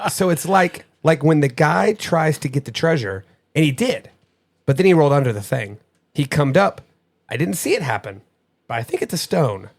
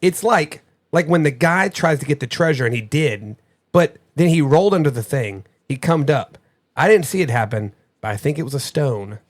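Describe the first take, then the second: First: Lightly voiced child, laughing at first; imitating child's reading. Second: Lightly voiced child reading a clue; imitating child's reading. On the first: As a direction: reread the kid's clue in her words. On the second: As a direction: read it the way the kid said it. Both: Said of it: "read this exactly the way that she said it".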